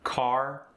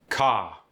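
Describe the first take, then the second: First: The R at the end is pronounced. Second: The R is dropped for an open vowel.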